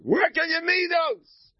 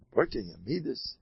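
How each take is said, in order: First: High, slow preachy tone; much higher sing-song sermonizing; mock sage advice. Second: Said in the usual way. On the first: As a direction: ham up the sanctimonious mentor. Mock pious advice, then repeated plainly.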